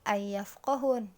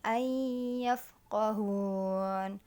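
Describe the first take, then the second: First: The n is said plainly before the y. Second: The n merges into the y with nasal hum. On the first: The speaker calls it wrong. "bukan ayyafqahun" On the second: The speaker calls it right. "jadi ayyafqahun"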